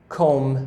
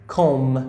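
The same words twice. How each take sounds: Both takes have the same delivery.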